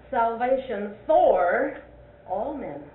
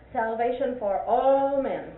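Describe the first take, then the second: First: Slow and louder, for stretched and rising; stress on FOR. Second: Slow and louder, all hit hard; stress on ALL. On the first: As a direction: hang on for, then drop to all men. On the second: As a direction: drag it out and land on all. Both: Shown as a demonstration. Teacher contrasting emphasis for a Sunday school class. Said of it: "what does the emphasis do to it".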